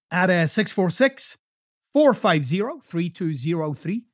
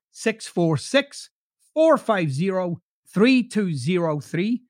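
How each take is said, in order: First: Said in the usual way. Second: "six four six, four five zero, three two zero three" spelled out slowly; slow repeat. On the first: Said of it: "reads out phone number". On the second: Shown as a demonstration. Host repeating the phone number for listeners, slowly. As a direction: read the number back slowly so they can write it. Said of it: "repeats phone number slowly".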